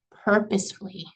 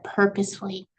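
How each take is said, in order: First: Said in the usual way. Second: "purposefully" said alone and set apart as the key word; keyword stress. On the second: Shown as a demonstration. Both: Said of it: "keyword here".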